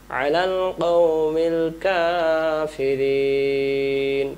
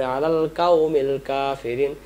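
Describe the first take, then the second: First: "কওমিল" with back q, "কাফিরিন" stretched long; correct long recitation. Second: "কাওমিল" with light k, no long chant; common misreading. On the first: Teacher models verse ending, "কওমিল" heavy, slowly chanted. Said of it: "টান দিতে হবে তিন আলিফ". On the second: Teacher shows common slip, "কাওমিল" with light k. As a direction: read "কাওমিল" plainly, front k and open a. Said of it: "আমরা পড়ি". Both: Shown as a demonstration.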